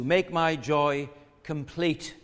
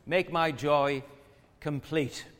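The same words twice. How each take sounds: First: Slow, each word weighted; preacher savouring "Make my joy complete"; slow emphatic quote. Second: "Make my joy" then a pause before "complete"; restated with a dramatic pause; paused repeat. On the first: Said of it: "he says". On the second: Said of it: "Make my joy complete (repeat)". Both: Shown as a demonstration.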